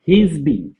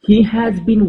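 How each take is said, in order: First: 'He has' is contracted into one short word. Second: 'He has' is said as two full words.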